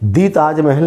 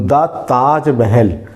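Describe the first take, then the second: First: 'The' is said with a long 'ee' vowel. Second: 'The' is said with a short 'uh' vowel. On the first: The speaker calls it wrong. "नहीं बोलेंगे" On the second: The speaker calls it right. "तो दा ताजमहल"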